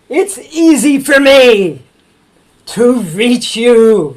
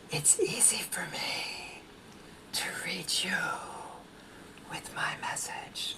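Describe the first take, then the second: First: It is shouted very loudly. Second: It is whispered very softly.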